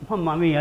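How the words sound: It is said in a pleading tone. I need some help here. "I'm seeking help"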